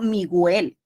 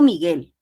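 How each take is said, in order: First: The u sound is pronounced aloud. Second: The u sound is silent. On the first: The speaker calls it wrong. "Yo no digo Miguel" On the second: The speaker calls it right. "yo no escucho la U. Yo digo Miguel"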